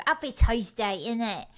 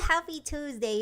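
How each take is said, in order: First: Put-on playful British accent. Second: Said in the usual way. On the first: Streamer greeting viewers on Tuesday, playful British accent. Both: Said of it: "like British for a bit".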